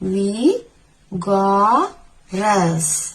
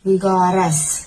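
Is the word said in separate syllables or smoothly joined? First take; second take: separate syllables; smoothly joined. First: The syllables are said separately with breaks. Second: The syllables are joined smoothly without breaks.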